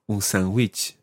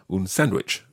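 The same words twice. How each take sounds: First: Sandwich is said with a Spanish accent. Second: Sandwich is said with an English accent. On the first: The speaker calls it right. "make sure you say sandwich in a Spanish accent" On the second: The speaker calls it wrong. "don't just say un sandwich"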